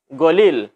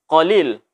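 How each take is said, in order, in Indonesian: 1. Kata itu dimulai dengan bunyi g. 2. Kata itu dimulai dengan bunyi q yang dalam dan dari tenggorokan.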